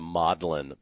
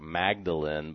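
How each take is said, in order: First: The word is said the Oxford way. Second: The word is said the American way. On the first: The speaker calls it right. "notice I'm pronouncing it the Magdalen Papyrus" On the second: The speaker calls it wrong. "that's how Americans pronounce it"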